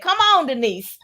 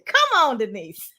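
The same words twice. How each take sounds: First: It is said in a plain speaking voice. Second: It is said in an exuberant church-preacher voice.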